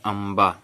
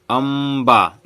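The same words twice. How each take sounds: First: Said in the usual way. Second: अम्बा loud, with a long hummed m; drawn-out pronunciation. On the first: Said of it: "उच्चारण करते हैं". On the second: Shown as a demonstration. Teacher demonstrates the pronunciation, अम्बा stretched out. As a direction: hold the m in अम्बा before a long final vowel. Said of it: "देखिए उच्चारण कर रहे हैं इसको".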